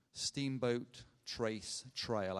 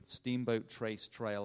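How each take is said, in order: First: Each word slow and set apart; deliberate, drawn-out pronunciation with small gaps; slow and careful. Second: Said in the usual way. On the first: Real, not acted. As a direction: say the name slowly, word by word. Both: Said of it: "I had to say that slowly".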